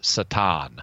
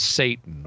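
First: It is said with a Hebrew pronunciation. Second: It is said with an English pronunciation.

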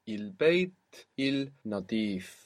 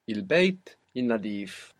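First: It is said slowly and carefully. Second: It is said at normal speed.

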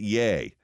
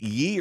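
First: The vowel sounds like the one in 'day'. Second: The vowel sounds like the one in 'key'. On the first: The speaker calls it right. "the proper pronunciation is yay" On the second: The speaker calls it wrong. "I called him ye"

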